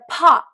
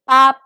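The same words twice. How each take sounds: First: The p is released with a strong puff of air. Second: The p is released without any puff of air. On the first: The speaker calls it wrong. "instead of pa ... our T's don't explode like that" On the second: The speaker calls it right. "we said pa"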